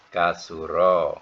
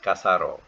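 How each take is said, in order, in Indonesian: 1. Vokal tengahnya adalah bunyi 'u'. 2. Vokal tengahnya adalah bunyi 'a'. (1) "dalam kamus betul-betul baris tiga ni yang betul" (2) "kalau kita punya suka, semua nak baris atas"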